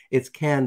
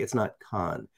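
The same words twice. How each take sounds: First: CANNES said like the English word "can". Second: CANNES with a broad "ah", like "kahn". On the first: Host corrects how listeners say the festival, CANNES as "can". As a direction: say CANNES to rhyme with "man". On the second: Host quotes the mistaken festival name, CANNES as "kahn". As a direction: say CANNES to rhyme with "con". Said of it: "people like to say Cannes". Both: Shown as a demonstration.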